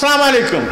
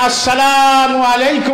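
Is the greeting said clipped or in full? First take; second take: clipped; full. First: The greeting is clipped, dropping the opening syllables. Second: The greeting is said in full, with every syllable. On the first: The speaker calls it wrong. "সালামটারও আমরা বারোটা বাজালাম" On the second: The speaker calls it right. "সালাম আলাইকুম না আসসালামু আলাইকুম রাহমাতুল্লাহ বলে"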